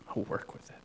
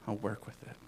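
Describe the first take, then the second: First: Breathy whisper as God; whispered promise from God. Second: Said in the usual way. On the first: Acted. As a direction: let it fall to a hush. God's voice, repeated softly.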